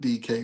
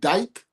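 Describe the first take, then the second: First: The name is said as two syllables. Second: The name is said as one syllable. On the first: It is how the name is normally said. "they pronounce it D K" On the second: It is a joking version of the name.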